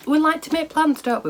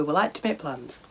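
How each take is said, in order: First: Wry amusement. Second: Said in the usual way. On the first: Real, not acted. Wry aside about plans.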